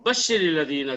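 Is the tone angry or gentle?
angry. It is said in a harsh, angry tone. It is a warning of punishment for the unbelievers. "हमारे लहजे में गुस्सा है, हमारे लहजे में सख्ती है"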